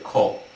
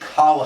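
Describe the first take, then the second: First: The vowel is pronounced like a rounded 'o'. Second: The vowel is pronounced like an open 'a'. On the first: The speaker calls it right. "They all know it's supposed to be pronounced like kol" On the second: The speaker calls it wrong. "No one would ever read that word kal haaretz"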